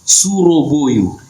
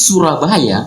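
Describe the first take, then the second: First: The vowels are thick, like o. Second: The vowels are thin, like a. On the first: This is how Javanese speakers say it. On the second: This is the written form.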